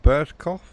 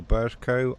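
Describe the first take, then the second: First: "Burscough" ending in an off sound, like cough; first pronunciation guess. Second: "Burscough" ending in a long o, silent gh; alternative pronunciation. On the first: Streamer guessing a station name for Jason, first pronunciation. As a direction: say "Burscough" as BURS-koff. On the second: Streamer offering another way to say a station name, alternative pronunciation. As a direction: say "Burscough" as BURS-koh. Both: Shown as a demonstration. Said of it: "correct me on the pronunciation".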